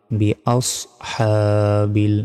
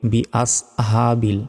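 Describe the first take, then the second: First: "আস" with heavy, rounded sad; slow, separated "বি আস, হা, বিল"; correct pronunciation. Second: "আস" with a plain, light s; "বি আস হা বিল" with untrained consonants; mistaken pronunciation. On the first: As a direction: hold "হা" long from the throat. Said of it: "এখানেও ভুল উচ্চারণ করি". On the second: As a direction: say "হা" as an ordinary light h. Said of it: "কি বলি?". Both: Shown as a demonstration.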